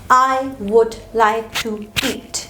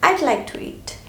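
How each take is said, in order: First: The word would is said in full. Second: The words are contracted to one syllable, I'd. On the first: The speaker calls it wrong. "instead of saying I would like to eat" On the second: The speaker calls it right. "you can simply say"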